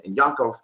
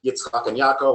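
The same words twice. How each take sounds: First: "Yaakov" said with a nasal n, Yankov; "Yaakov" turned Yiddish, Yan-kov; Yiddish form. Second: "Yaakov" said as Ya-a-kov, no n before the k; "Yaakov" in its Hebrew sound, Ya-a-kov; Hebrew form. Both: Shown as a demonstration. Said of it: "very similar to the religious Hebrew name".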